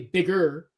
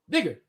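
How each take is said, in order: First: The word ends with a clear 'er' sound. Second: The word ends with an 'uh' sound. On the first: This is the form these speakers avoid. "they don't say bigger" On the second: This is how these speakers actually say it.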